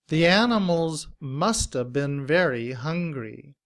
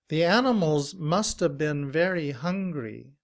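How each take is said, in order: Both takes have the same delivery.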